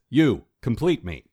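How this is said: There is a pause after "You".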